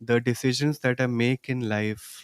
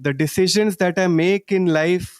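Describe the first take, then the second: First: The words are spoken at normal volume. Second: The words are spoken loudly. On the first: "In a normal voice now" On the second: "Loudly once again"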